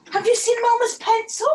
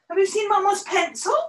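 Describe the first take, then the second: First: Higher and louder repeat; repeating the question to the dog, higher and louder; higher pet talk. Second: Pet talk. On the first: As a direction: ask the dog again, more excited. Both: Real, not acted. Asking the dog.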